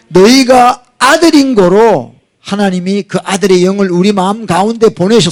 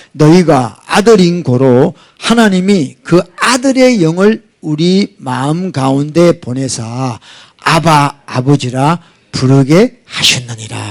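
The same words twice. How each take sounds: First: Said in the usual way. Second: Slow, deliberate Bible reading; measured pulpit reading of a verse; slow scripture reading. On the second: Acted. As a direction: read each word of the verse slowly and solemnly. Scripture read slowly.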